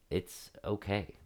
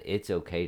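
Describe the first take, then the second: First: Soft, slow and reassuring; gentle reassurance. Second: Said in the usual way. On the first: Retold or imitated. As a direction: say it gently to calm him. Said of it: "And I said it in that tone". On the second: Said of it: "I just said".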